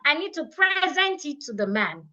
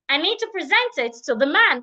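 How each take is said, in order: First: Present is stressed on its first syllable. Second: Present is stressed on its second syllable. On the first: The speaker calls it wrong. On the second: The speaker calls it right. "I should stress the second syllable"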